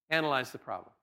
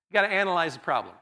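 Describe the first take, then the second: First: Lower, softer echo of the point; softly repeating analyze the problem; quiet repeat. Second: Said in the usual way. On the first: Shown as a demonstration. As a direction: drop it down and let it sink in.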